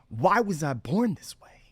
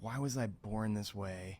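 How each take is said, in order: First: It is asked in a lively, upbeat tone. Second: It is asked in a low, dejected tone. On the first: The speaker is curious about their condition's purpose. The speaker calls it right. "what if you put some spice behind it? Like, but some positive spice" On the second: The speaker pities and resents their condition. The speaker calls it wrong. "And not just the question, but the tone"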